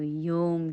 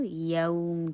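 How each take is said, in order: First: یوم as "yome", pure "o"; mispronounced "yome" for یوم; closed jaw. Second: یوم as "yawm", opening on "a"; open jaw. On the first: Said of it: "جبڑا بند رہے گا". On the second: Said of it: "فتح کے لیے جبڑا کھولے تو یوم". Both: Shown as a demonstration.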